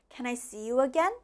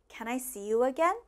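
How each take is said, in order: The two takes are said the same way.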